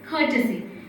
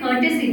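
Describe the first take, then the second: First: The first k sound has a strong breath. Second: The first k sound has no breath. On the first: The speaker calls it right. "here I am pronouncing each and every one as clear" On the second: The speaker calls it wrong. "We say courtesy, but that's not right"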